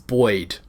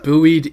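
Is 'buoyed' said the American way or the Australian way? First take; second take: Australian; American. First: It is said in the Australian way. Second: It is said in the co-host's non-Australian way. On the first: "for us" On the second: "you and I pronounce it very, very differently"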